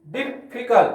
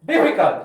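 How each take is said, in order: First: Difficult split into dif, fi, cult; syllable by syllable. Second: Said in the usual way. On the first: Shown as a demonstration. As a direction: sound out difficult in three separate beats. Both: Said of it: "तीन syllable है".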